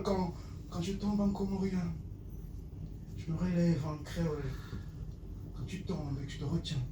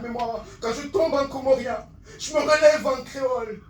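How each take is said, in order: First: Hushed slam refrain. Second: High, forceful verse; impassioned slam declamation. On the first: Poet repeats his fall and rise, hushed slam. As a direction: let it fade line by line. Same lines repeated softly. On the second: Poet proclaims his two languages, impassioned slam. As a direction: push the line out proudly. Climax line of poem. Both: Acted.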